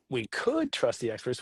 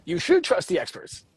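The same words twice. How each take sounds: First: "could" said softly and slowly, much quieter; softer option. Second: "should" pressed and falling, a telling-you tone; stress on should. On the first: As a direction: let "could" drop into a gentle, slow possibility. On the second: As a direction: lean on "should" like an instruction. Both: Shown as a demonstration.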